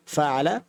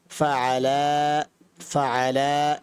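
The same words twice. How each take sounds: First: Said in the usual way. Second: ফাআলা with the final আ stretched out, very slow; drawn out dual ফাআলা; long vowel pull. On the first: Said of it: "তখন এক আলিফ টান হবে". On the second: Shown as a demonstration. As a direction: hold the আলিফ টান in ফাআলা. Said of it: "এইভাবে টান দিলেই বোঝা যাবে দুইজন করেছে".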